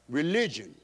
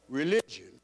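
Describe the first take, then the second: No difference in how they are said.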